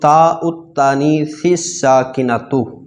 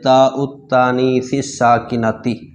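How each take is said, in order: First: The last word ends with a 'u' vowel. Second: The last word ends with an 'i' vowel. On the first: The adjective describes the letter itself. The speaker calls it right. "ये इबारत दुरुस्त है" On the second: The adjective describes the feminine marker rather than the letter. The speaker calls it wrong. "बाज़ तालिब इल्मों को देखा है वो इबारत इसकी गलत पढ़ते हैं"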